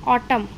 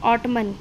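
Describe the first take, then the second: First: The word ends on the m sound. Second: The word ends with an audible n sound. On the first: The speaker calls it right. "एन की sound silent हो जाती है।" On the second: The speaker calls it wrong. "अगर हम एन की sound भी लेते हैं तो ये क्या बन गया, ... रॉन्ग प्रोनाउंसिएशन है।"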